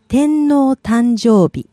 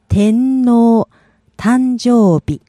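First: It is said at normal speed. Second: It is said slowly, broken into parts.

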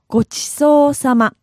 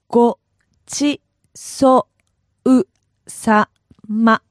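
First: It is said fast, at natural speed. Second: It is said slowly, syllable by syllable.

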